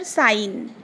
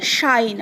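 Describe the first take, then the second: First: साइन begun with a hissing S, no SH. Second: शाइन begun with a hushing SH. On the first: Teacher contrasting sounds for pupils, साइन with a clean S. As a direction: model a plain S at the start of साइन. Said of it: "pronounce हो रहा है". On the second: Teacher contrasting sounds for pupils, शाइन with a distinct SH. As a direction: model the SH at the start of शाइन. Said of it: "यहाँ पर क्या उच-, अम, pronounce हो रहा है". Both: Shown as a demonstration.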